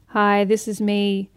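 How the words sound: It is said unsmiling, fairly monotone.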